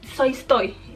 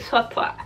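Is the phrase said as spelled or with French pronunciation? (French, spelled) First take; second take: spelled; French. First: It is read out letter by letter as spelled. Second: It is said with French sounds, like suatua. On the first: The speaker calls it wrong. "No se pronuncia así" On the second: The speaker calls it right. "es como que suatua, algo así"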